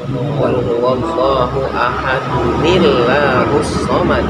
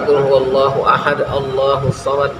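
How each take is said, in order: First: Ahad is joined to Allahus by an added 'uni' sound. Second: Ahad runs straight into Allahus with no added vowel. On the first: The speaker calls it right. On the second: The speaker calls it wrong. "enggak boleh"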